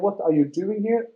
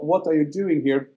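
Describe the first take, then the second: First: It sounds like a genuinely curious question. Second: It sounds hostile, like telling someone to leave.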